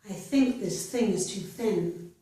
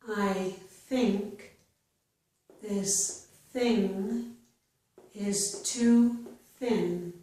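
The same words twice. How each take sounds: First: The sentence is spoken faster. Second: The sentence is spoken slowly. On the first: "then I will read it a little bit faster" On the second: "I will read each sentence slowly"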